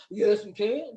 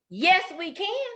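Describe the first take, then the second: First: Low put-on boy voice; boys answering. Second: Put-on higher, drawn-out girlish reply; high singsong girl voice; girls answering. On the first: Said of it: "said the boys". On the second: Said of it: "said the girls". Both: A narrator's reading.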